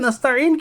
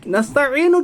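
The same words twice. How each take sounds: First: The word ends on the 'n' consonant. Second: The word ends with a short 'u' vowel. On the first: "नून की पेश खा डाली" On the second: "असल में नून पेश नू है"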